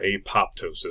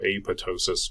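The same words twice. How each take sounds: First: The second P is pronounced. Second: The second P is silent. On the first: "Some people go ahead and pronounce that P" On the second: "I prefer to leave it silent"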